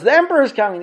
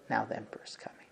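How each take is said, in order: First: High and loud, sure the emperor is here; all excited. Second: Soft whispered quiet certainty; hushed whisper. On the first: Apostate sure the emperor is arriving, loud excited high call. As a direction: shout it with eager excitement. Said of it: "every time the guy gets all excited". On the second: Rav Yosef quietly telling them in the silence, soft whisper. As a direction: whisper it like a calm secret. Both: Retold or imitated.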